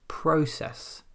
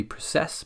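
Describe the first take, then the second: First: "process" as PRO-cess; stress on first syllable. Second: "process" as pro-CESS; stress on second syllable. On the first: Teacher gives the exception, stress on PRO. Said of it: "In this case it's". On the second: Teacher gives what the rule predicts, stress on CESS. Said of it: "usually with the verb it would be". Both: Shown as a demonstration.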